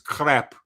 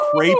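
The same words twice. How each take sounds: First: It is said with a French pronunciation. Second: It is said with a local pronunciation.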